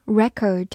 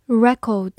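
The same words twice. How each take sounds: First: "record" as American noun, REK-erd; American pronunciation. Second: "record" as British noun, REK-awd; British pronunciation. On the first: Teacher gives learners the noun, American accent. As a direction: say "record" the American way, stress first, R sounded. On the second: Teacher repeats the noun for learners, British accent. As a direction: say "record" the British way, stress first, no R. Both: Shown as a demonstration. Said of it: "美式发音record".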